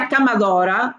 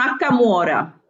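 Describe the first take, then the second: First: The word is said in full, with every syllable. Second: The word is shortened, with a middle part dropped. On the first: "anziché dire accamadora" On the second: "dicono accamuora"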